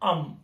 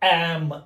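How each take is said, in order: First: It has a short, neutral, weak vowel. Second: It has the open vowel heard in 'cat'. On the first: "ఇది సింపుల్గా అమ్ అమ్" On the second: "ఇంగ్లీష్లో ఉన్న ఈ యా అనే sound"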